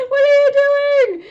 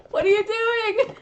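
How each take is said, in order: First: Much higher, loud laughing squeal; laughing disbelief. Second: Higher, louder disbelieving question; can't believe what he's doing; incredulous. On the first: Reader laughing hard at Grover's antics, high and loud. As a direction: crack up mid-question. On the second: Reader asks Grover in disbelief, higher and louder. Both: Real, not acted.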